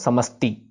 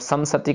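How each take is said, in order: First: The word breaks after samas, then ti. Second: The word breaks after sam, then sati. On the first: The speaker calls it right. "समस फिर ती" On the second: The speaker calls it wrong. "सम सती करेंगे तो गलत हो जाएगा"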